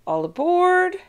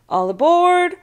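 First: High, loud call, a little less force. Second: High, loud call. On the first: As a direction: call it again down the line. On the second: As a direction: belt it across the gangplank. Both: A narrator's reading. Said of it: "He kept calling".

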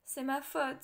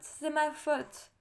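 First: Said in the usual way. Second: Slow, louder despairing cry on "ma"; anguished lament. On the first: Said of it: "ne savait que répéter". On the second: A narrator's reading. Grieving king blaming himself for losing his daughter, slow louder anguish. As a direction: drag it out, hitting "ma" in despair. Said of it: "en se frappant la tête avec les poings".

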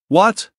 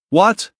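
First: Sharp high mock-surprised "What?"; feigned shock. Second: High rising mock-surprised "What?"; feigned shock. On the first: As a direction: fake your astonishment, rising high. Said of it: "Feigning shock". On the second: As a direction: play up the surprise to stir things up. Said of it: "I still felt the need to escalate things".

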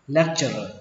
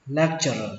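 No difference in how they are said.

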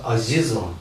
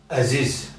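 First: «азизом» with a plain Russian «а» first; altered pronunciation. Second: «азиз» opening on the native «э»-like vowel; original pronunciation. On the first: Teacher shows the changed word, plain «а» starting «азизом». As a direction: say «азизом», opening on a clear «а». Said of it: "становится". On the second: Teacher shows the original word, fronted vowel starting «азиз». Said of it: "Из-за этого слово". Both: Shown as a demonstration.

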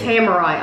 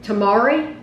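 First: Tamari as TAM-uh-rye, ending in eye. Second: Tamari as tah-MAH-ree, stress on MAH, ending ee. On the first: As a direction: say tamari with short a and final rye. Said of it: "I'd say tamari almonds". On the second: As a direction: say Tamari with broad ah and final ee. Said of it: "You wouldn't say tamari". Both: Shown as a demonstration.

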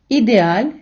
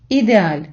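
First: Ідеаль read slowly, rising at the end, stress on the last syllable; first take of ідеаль, rising; slow model word. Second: Ідеаль read slowly, falling at the end, stress on the last syllable; second take of ідеаль, falling; slow model word. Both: Shown as a demonstration. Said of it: "я буду читати повільно, робити паузу".

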